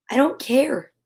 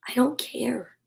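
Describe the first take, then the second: First: Said in the usual way. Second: Unvoiced sleepy whisper. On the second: A narrator's reading. Bear drifting off, whispering to Mouse. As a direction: breathe it, barely awake.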